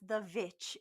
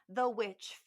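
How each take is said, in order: First: The word starts with a V sound. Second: The word starts with a W sound. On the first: The speaker calls it wrong. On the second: The speaker calls it right.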